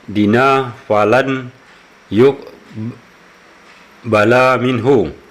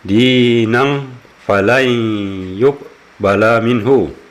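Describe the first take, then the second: First: The first word ends on a plain vowel. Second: The first word ends with a nasal n sound. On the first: The speaker calls it wrong. "tadi si Bapak ini membaca" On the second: The speaker calls it right. "yang seharusnya dibaca"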